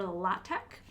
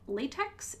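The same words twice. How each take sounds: First: It does not sound like ordinary latex. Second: It sounds like the ordinary word latex. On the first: The speaker calls it right. "it's uh, LaTeX or LaTeX" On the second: The speaker calls it wrong. "you don't pronounce it latex"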